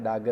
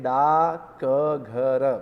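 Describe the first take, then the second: First: The k sound is dropped entirely. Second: The k sound is clearly pronounced. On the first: This is how the word is actually spoken. "उसका उच्चारण हम करते हैं डागर" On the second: This is how the word is written. "जब लिखते हैं तब हम ऐसे ही लिखते हैं डाक घर"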